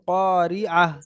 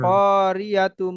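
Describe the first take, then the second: First: The word ends with a silent h sound. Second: The word ends with a full tu syllable. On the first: The reader stops at this word. "যখন এখানে থা- থামতে হবে" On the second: The reader keeps going without stopping. "মনে করেন এখানে থামবেন না"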